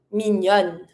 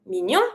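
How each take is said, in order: First: Mignonne with a clear final N; French "mignonne" as meen-yonn; feminine N ending. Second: Mignon with no final N; French "mignon" as meen-yohn; masculine nasal ending. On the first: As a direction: close "mignonne" on N. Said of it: "double the N before putting your feminine E". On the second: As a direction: end "mignon" on the nasal vowel. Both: Shown as a demonstration.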